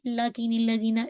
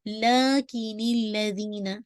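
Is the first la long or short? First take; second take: short; long. First: The first la is cut short. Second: The first la is stretched long. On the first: The speaker calls it wrong. "Not" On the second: The speaker calls it right. "ला to count"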